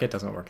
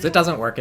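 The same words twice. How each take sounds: First: Said in the usual way. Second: Louder and higher, a sudden exclaim. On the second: Real, not acted. Caster cries out as the disguise fails, loud. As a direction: call it out as it fails. Caster reacts to failed sneak.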